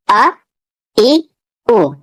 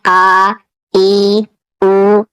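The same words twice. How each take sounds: First: अ ई उ said short and quick, not drawn out; the right short way to read them; short clipped vowels. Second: आ ई उ stretched long, as a wrong example; long vowels shown as the mistake; drawn-out vowels, wrong way. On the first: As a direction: snap each vowel अ, ई, उ off short. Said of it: "इसे खींचकर नहीं पढ़ना है". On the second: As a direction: drag each vowel आ, ई, उ out slowly. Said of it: "इसे इस तरह नहीं पढ़ना है". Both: Shown as a demonstration.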